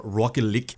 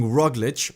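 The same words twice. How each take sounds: First: Roglic lower, in another commentator's odd pronunciation; Sean Kelly. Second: Said in the usual way. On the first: Retold or imitated. Host playfully borrowing a commentator's way with the rider's name, imitated pronunciation. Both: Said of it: "as, uh, Sean Kelly says his name".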